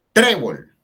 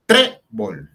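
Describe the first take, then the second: First: Trébol with a loud, high TRÉ, falling after; TRÉ-bol as one word, front-stressed; stress on penultimate syllable. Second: Trébol broken into TRÉ... bol; stress on penultimate syllable, split. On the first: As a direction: punch the first syllable of Trébol. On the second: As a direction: separate the syllables of trébol, punching the first. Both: Shown as a demonstration. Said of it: "llevan la fuerza en la penúltima sílaba".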